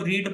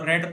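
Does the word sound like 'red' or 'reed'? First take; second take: reed; red. First: The vowel is long, as in 'reed'. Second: The vowel is short, as in 'red'. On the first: It is the present form of the verb. "इसको रीड पढ़ते हैं" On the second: It is the past form of the verb. "इसको रेड पढ़ते हैं"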